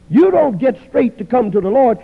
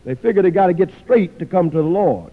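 First: "You" hit higher and louder, then fall; stress on you. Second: Said in the usual way. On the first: Shown as a demonstration. Preacher correcting the congregation, stressing "You". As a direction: punch "You don't" to correct them. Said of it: "You come to the Lord to get straight".

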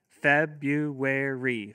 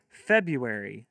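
First: February very slow, four drawn-out beats; split into syllables. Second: Said in the usual way. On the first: Shown as a demonstration. Teacher modelling clapping for kids, February in four slow beats. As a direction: stretch February into four claps. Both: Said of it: "have your kids clap".

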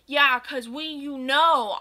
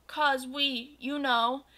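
First: Louder, mocking his words back; angry yell. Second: Said in the usual way. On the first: Goth girl mocking Draco's excuse, angry yell. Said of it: "I yelled in an angry voice". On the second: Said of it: "he gadgeted uncomfortably".

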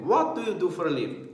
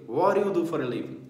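First: "What do you" in full, t and d both sounded; spelled-out form of "What do you do for a living"; as written. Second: "What do you" merged into "whaddaya"; linked, casual "What do you do for a living"; joined spoken form. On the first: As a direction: pronounce every word of "What do you" separately. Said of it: "Mas a escrita é". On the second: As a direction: soften "What do you" into one flapped run. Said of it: "juntar tudo ali". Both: Shown as a demonstration.

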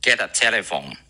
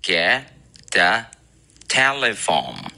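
First: Combined fluent version; linked with flap T. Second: Get, a, telephone split word by word; super slow demo. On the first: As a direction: get a said as ged-a. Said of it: "合起来就是". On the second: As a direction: read it super slowly. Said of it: "如果读的超级慢速". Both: Shown as a demonstration.

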